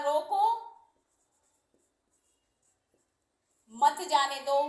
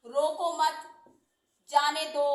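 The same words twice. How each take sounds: First: रोको alone, long pause, then मत जाने दो; forceful रोको, break, मत joined to जाने दो; pause after रोको. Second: रोको मत said together, pause, then जाने दो; forceful रोको मत, break before जाने दो; pause after मत. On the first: (रोको के बाद लंबा विराम, ज़ोर देकर) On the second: (रोको मत के बाद विराम, ज़ोर देकर) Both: Shown as a demonstration. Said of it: "बलपूर्वक कोई बात करनी है".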